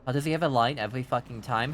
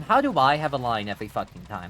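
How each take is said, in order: First: Said in the usual way. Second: "I" punched with a pitch jump; stress on I. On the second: Real, not acted. Streamer turning a viewer's question back, stress on "I". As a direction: throw it back, leaning hard on "I".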